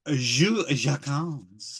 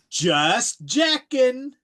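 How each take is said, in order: First: The name is said with French pronunciation. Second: The name is said like English words. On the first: The speaker calls it right. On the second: The speaker calls it wrong.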